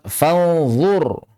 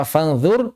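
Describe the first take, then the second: First: "fanzur" with a thick, emphatic zha; drawn-out "fanzur" with heavy zha; correct heavy zha. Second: "fanzur" with the z thinned to a light dh; mistaken thin dhal. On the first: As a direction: hum the n, then a dark z in "fanzur". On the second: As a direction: say "fanzur" lightly, tongue tip at the teeth. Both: Shown as a demonstration. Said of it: "jangan sampai dibaca".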